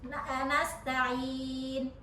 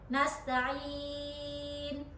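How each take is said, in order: First: The long vowel before n is held briefly. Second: The long vowel before n is held moderately. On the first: "dua harokat" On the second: "empat harokat"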